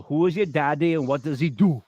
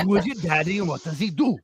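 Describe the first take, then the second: First: Kindergarten Cop quote. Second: Kindergarten Cop quote again. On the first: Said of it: "what was the kindergarten cop". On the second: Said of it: "Wasn't that it?". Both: Retold or imitated.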